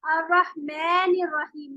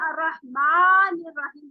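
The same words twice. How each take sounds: First: Slow अर्रहमानिर with the a bent toward e; slow अर्रहमानिर, vowel pushed to e; exaggerated imala. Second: Slow अर्रहमानिर with a slight lean toward e; slow, careful अर्रहमानिर; correct light tilt. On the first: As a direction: demo the wrong tilt, अर्रहमानिर sounding like रहमेनिर. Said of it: "मैं नहीं बना लेना चाहिए". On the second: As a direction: recite अर्रहमानिर with mouth half open, lightly tilted. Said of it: "पूरा मुंह नहीं खोलेंगे". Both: Shown as a demonstration.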